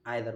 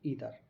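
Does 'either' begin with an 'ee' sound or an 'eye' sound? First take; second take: eye; ee. First: The word begins with an 'eye' sound. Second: The word begins with an 'ee' sound. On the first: This is the British pronunciation. "British language में आइदर बोलते हैं" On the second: This is the American pronunciation. "American language में हम pronounce करते हैं ईदर"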